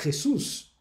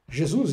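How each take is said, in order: First: It is pronounced the Spanish way. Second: It is pronounced the Portuguese way. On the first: "você vai falar em espanhol" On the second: "Jesus em português"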